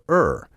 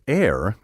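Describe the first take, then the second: First: The word rhymes with sir. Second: The word rhymes with hair. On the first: The speaker calls it right. "still prefer er" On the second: The speaker calls it wrong. "The variant air"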